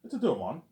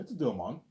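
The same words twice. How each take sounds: First: Higher, louder mock London accent; hammed-up London accent; a bad impression of a London accent. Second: Put-on lighter London accent take; a hint of London English; mild London accent; bad London accent. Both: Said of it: "his British London accent".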